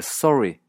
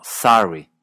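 First: "sorry" as sore-ee, rounded o; Canadian pronunciation. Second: "sorry" as sahry, open vowel; American pronunciation. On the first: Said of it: "no decir sorry". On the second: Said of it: "sino sorry". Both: Shown as a demonstration.

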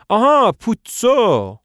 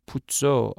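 First: High, loud, slow aha of realization; sudden recognition. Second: Said in the usual way. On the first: Acted. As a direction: stretch out آها as if it just clicked. Estragon suddenly recognizes name.

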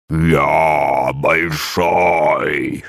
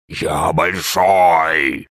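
First: Very slow, hollow monster drawl; booming drawl. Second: Very slow, hollow creature drawl; drawn-out monster voice. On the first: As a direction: stretch it out like a giant echo. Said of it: "гулко протянуло существо". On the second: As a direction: stretch each word like a giant. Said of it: "завопило существо". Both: A narrator's reading.

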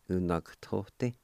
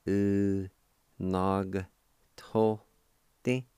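First: Said in the usual way. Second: "U, Nog tote" with a pause after each syllable; syllable-by-syllable pronunciation. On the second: Shown as a demonstration. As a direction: sound out "U, Nog tote" piece by piece for a learner. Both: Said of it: "pronounce the G sound with the N A like this".

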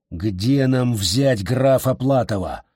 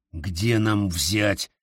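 First: Slow, графа hit with a falling tune; stress on графа. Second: Drawn out, stressing где; where, slowly, where; slow pointed question. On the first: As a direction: lean on графа, slowly. Completes the question, stressing графа. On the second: Interrogation, slow repeat. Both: Acted.

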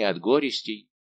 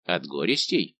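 First: "горестей" said with a falling tune; falling statement. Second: "горестей" turned into a question with a rising tune; echoed question. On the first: Servant lists his ailments to D'Artagnan, falling statement. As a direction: state "горестей" firmly, letting the pitch drop at the end. Statement, then echoed as a question. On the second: D'Artagnan echoes the servant's word, rising question. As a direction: repeat "горестей" lower, lifting the end questioningly. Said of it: "повторил Д'Артаньян". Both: A narrator's reading.

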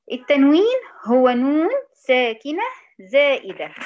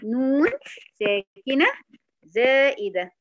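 First: Slow, loud dictation pace. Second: A pause after نون and after ساكنة, each word given alone. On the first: Teacher dictating to students, slow and loud. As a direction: spell the definition out slowly for the class. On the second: Teacher repeats the definition for students, word by word. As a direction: dictate نون ساكنة زائدة one word at a time. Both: Shown as a demonstration. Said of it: "تاني".

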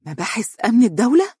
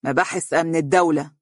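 First: High, rising, horrified question; alarmed rising disbelief; terrified echo. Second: Cold falling delivery, hatred held inside; grim, resentful statement; deep-seated hatred. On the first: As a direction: repeat it back in terror. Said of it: "اتسعت عيناها رعبا وهي تردد خلفه". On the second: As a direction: say it flatly with buried malice. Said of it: "نظر أمامه بحقد دفين". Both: Acted.

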